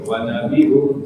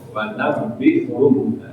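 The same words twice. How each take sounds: First: The b sound is said plainly and lightly. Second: The b sound is pressed hard and held. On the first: "Kalau dibaca biasa tanpa tajwid" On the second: "Tapi kalau pakai tajwid"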